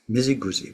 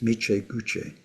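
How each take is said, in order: First: The syllables are run together quickly. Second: Each syllable is said carefully and fully. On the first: "because people say it quickly, it becomes" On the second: "pronounce it properly"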